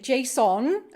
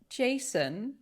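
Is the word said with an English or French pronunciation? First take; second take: French; English. First: It is said with a French-style pronunciation. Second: It is said with a plain English pronunciation. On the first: "I have to say it French" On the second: "every time I I say the word Jason"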